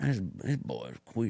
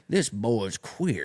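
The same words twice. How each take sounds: First: Slower and softer Southern drawl; a quiet mock Alabama drawl, slow. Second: Slow Southern drawl; a mock Alabama drawl, slow. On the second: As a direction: sneer like a rural clerk. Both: Mocking redneck clerk.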